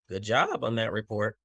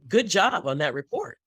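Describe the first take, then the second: First: The praise sounds doubtful and insincere. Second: The praise sounds warm and sincere. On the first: The speaker may not think the report was good. The speaker calls it wrong. "the vocal inflection didn't match the words" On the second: The speaker really thinks the report was good. The speaker calls it right. "my vocal inflection hopefully matches the words"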